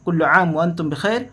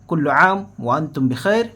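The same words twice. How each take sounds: First: It is said quickly. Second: It is said at a slower, normal pace.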